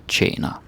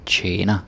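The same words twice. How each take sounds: First: "tjener" with a short, quick first vowel. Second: "tjener" with a drawn-out first vowel; long vowel tjener. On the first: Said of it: "slightly different pronouncing". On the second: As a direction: stretch the e in "tjener". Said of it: "that's longer". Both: Shown as a demonstration.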